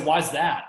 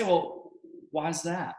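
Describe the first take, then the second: First: "Why is that?" louder, with a hard falling end; blunt why. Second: "Well, why is that?" slow and a bit softer, leaning on "Well"; drawn-out "Well," gently curious "why is that?". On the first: Coach shows the blunt way to ask why. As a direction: punch "Why" and drop the pitch flatly on "that". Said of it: "That sounds way different". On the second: Coach shows the soft way to ask why. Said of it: "you end going down in tonality". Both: Shown as a demonstration.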